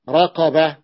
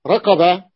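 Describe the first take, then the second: First: رقبة said with a clear q, raqeba; رقبة with the proper q sound; corrected pronunciation. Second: رقبة said with a k sound, rakeba; رقبة with a k in place of the q; wrong pronunciation. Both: Shown as a demonstration.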